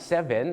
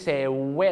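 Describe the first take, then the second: First: The middle consonant is a clear v sound. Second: The middle consonant sounds like a w. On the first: The speaker calls it right. "ก็อย่าลืมตัว v ... ก็จะซ้อมอย่างนี้ครับ" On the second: The speaker calls it wrong. "ไม่ใช่"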